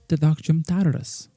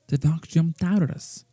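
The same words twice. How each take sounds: The two takes are said the same way.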